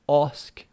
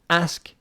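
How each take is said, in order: First: The word is said in a British accent. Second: The word is said in an American accent. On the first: "British English" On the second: "American English"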